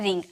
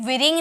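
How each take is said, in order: First: The word starts directly with the r sound. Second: A w sound is heard before the r. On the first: The speaker calls it right. "डब्ल्यू silent होता है, हम बोलते हैं रिंग" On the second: The speaker calls it wrong. "यहाँ भी विरिंग नहीं बोला जाता"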